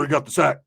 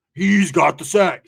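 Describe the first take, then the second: First: Said in the usual way. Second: He's got the sack, dragged out slowly and louder; slow insistent repeat. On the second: Retold or imitated. Roach insisting to the narrator that the guy has the drugs. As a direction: lean on each word to make the point.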